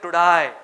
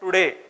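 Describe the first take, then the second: First: The word ends with a 'die' sound. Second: The word ends with a plain 'day' sound. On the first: "वो लोग बोलेंगे टुडाई" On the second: "ये word है टुडे"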